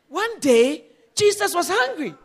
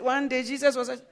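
First: It is said dramatically, with conviction. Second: It is said flatly, without conviction.

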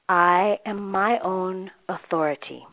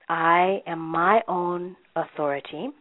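No difference in how they are said.

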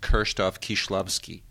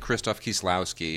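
First: The name is said with a Polish-style pronunciation. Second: The name is said with an anglicized pronunciation. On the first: This is the correct form of the name. The speaker calls it right. "It should be pronounced" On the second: This is the usual English habit. The speaker calls it wrong. "Like we say"

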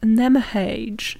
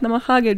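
First: It is said with an anglicized English pronunciation. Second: It is said as written, Japanese-style. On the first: The speaker calls it wrong. "they would be like" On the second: The speaker calls it right. "pronounce it how it's read"

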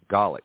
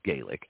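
First: The word is said the way it is in Scotland. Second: The word is said the way it is in Ireland. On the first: "but up there it is pronounced Gaelic" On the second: "it actually originates from Ireland, which is Gaelic"

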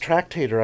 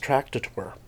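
First: The word is said in its usual pronunciation. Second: The word is said in a misread pronunciation. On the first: "I didn't think it was tractator" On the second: "I thought it was tractator. ... I prefer that to this day"

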